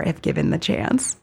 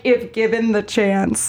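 First: Said in the usual way. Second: If given the chance slowed, each word weighted; stress on the whole phrase. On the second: Shown as a demonstration. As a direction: lean slowly on if given the chance. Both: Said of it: "But, like".

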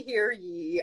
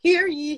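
First: Said in the usual way. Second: Lightly voiced town crier call; a hint of a herald announcing. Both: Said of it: "It sounds very profound".

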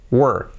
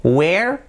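First: "were" as a single falling "wur"; one-syllable were. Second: "Where" as "we-er", clear e, rising; two-syllable where. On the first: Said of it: "este es uno, were". ("were" en una sílaba, "uer" sin e, descendente) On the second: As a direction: stretch "Where" into two sounds, lifting at the end. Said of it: "Where son dos sílabas". ("Where" en dos sílabas, "ue-er", ascendente) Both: Shown as a demonstration.

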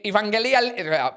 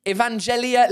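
First: Evangelia with a hard g, as in Greek; Greek-style pronunciation. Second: Said in the usual way. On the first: Shown as a demonstration. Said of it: "how you would say it in Greek". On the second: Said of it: "I don't know how you would say it in Greek".

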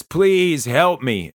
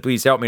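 First: Slow, higher pleading please help me; retelling a drunk friend's tearful plea, mildly acted; retold crying plea. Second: Said in the usual way. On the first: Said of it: "looks up at me crying and says". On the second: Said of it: "she fell down and said".

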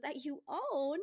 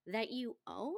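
First: High, light and cute, not shrill; cute mock-innocent question. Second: Lightly mimicked cool comeback; a cool, unbothered question; understated deadpan echo; dry retort. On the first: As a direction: toss it off sweetly, pitched up. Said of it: "She just goes in a really cute way". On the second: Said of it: "she doesn't say it like shrill or rude".

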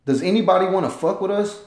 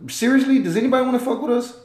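First: Said in the usual way. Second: Higher and faster, fired-up repeat; emphatic challenge. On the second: Real, not acted. Vlogger repeats his challenge to the world, higher and faster. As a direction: push it up and rush it like you dare them.

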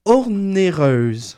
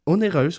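First: Ornéreuse said slowly with an extra r sound, or-né-reuse; mispronounced word. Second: Onéreuse said cleanly as o-né-reuse, no r; corrected pronunciation. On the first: Real, not acted. Co-host corrects his slow, mispronounced Ornéreuse. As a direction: drag out Ornéreuse, wrongly adding an r after the o. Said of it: "T'as dit ornéreuse". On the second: Shown as a demonstration. Columnist corrects himself after co-host questions word, plainly. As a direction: fix it: Onéreuse, without the r. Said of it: "C'est pas onéreuse?".

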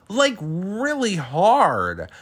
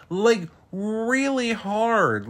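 First: High, slow stress on "really hard"; emphatic. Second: Higher again, slow, "really" rising and falling; even more emphatic. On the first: Stressing how hard Terry hit her. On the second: Repeating how hard Terry hit her. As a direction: stretch "really" up high. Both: Real, not acted.

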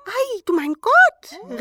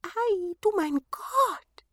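First: Sehr hoch, laut und gedehnt; laut hoch vor Verwunderung rufen; staunender Ausruf. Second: Hoch und gedehnt staunen; staunende Zwerge. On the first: (hohes, lautes Staunen) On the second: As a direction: langsam hoch ausrufen. (hohes, gedehntes Staunen) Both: A narrator's reading. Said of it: "riefen sie".

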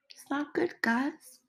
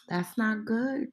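First: High soft repeat. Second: Said in the usual way. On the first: Real, not acted. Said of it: "repeated higher, softer".

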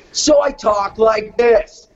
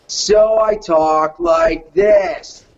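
First: Drawn-out, obnoxious cartoon kid; slow it into a bratty twelve-year-old's voice; obnoxious pest voice. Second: Very slow, zenned-out dude voice; chilled-out skater dude. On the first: Showing his audition voice for a cartoon pest, obnoxious. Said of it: "he's an obnoxious". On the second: Showing his audition voice for a skater, chilled out. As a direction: stretch it out like a spaced-out skater. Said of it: "He's a chilled out skater dude". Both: Shown as a demonstration.

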